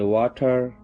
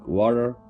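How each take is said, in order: First: The middle consonant is a clear T. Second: The middle consonant sounds like a D. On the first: "we sound T as in T" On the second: "T sound like a D"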